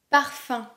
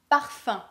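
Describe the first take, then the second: No difference in how they are said.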